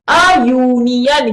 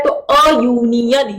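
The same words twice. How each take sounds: First: अ यूनियन, slow, with a y glide on यूनियन; drawn out अ then यूनियन starting yoo; a before union. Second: Slow अ यूनियन with the y sound of यूनियन; a before union. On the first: Teacher slowly modelling अ यूनियन for students. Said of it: "touch हो रही है जबान". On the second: Teacher repeating अ यूनियन slowly for the class. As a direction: say अ, then यूनियन with tongue up for yoo. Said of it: "touch हो रहा है ऊपर का हिस्सा". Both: Shown as a demonstration.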